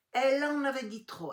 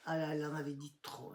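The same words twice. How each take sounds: First: "Elle en avait dit trop" much higher and louder; emphatic repeat. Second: Said in the usual way. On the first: Real, not acted. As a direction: hammer "Elle" home.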